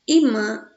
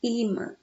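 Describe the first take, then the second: First: "imã" read with the stress on the final "mã". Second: "Imã" with the stress on the first "I". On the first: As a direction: say "imã" as written without an accent on the i. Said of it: "Que na verdade é imã". ("imã" com a tônica no "mã") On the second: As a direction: say "Imã" as if the i carried an accent. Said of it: "o acentozinho no i". ("Imã" com a tônica no "I") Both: Shown as a demonstration.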